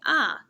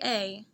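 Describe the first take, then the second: First: The vowel is a reduced 'uh' sound. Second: The vowel is a full 'ay' sound. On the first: "we sound like more experienced readers when we say ah" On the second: "It is not incorrect to say A"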